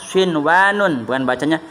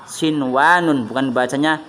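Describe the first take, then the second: Both takes have the same delivery.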